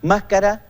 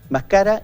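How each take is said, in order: First: The stress is on the first syllable. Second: The stress is on the second syllable. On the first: It names a face covering. "Fiestas de máscaras" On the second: It is a past subjunctive form of chewing. "la palabra grave"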